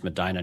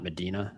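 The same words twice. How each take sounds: First: Medina with a long "eye" in the middle, me-DYE-na; local pronunciation. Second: Medina with a long "ee" in the middle, me-DEE-na; mistaken pronunciation. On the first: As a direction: say Medina as me-DYE-nuh, rhyming with China. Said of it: "I just realized it's pronounced". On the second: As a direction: say Medina the Spanish way, meh-DEE-nuh. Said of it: "not Medina". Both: Shown as a demonstration.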